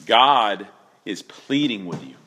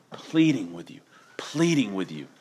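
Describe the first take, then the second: First: Said in the usual way. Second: Whisper. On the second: Real, not acted. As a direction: breathe it as a hushed plea. Repeats softly for effect.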